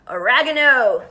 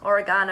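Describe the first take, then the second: First: It is said the American way. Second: It is said the Australian way.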